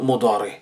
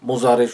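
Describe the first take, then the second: First: The middle consonant is a d-like sound. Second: The middle consonant is a z-like sound. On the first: The speaker calls it right. "শুদ্ধ কি? মাদি এবং মোদারে।" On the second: The speaker calls it wrong. "মোজারে শুনবেন, কিন্তু এগুলো শুদ্ধ নয়।"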